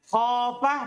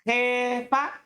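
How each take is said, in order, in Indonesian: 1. Vokalnya bunyi a terbuka. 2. Vokalnya condong ke e.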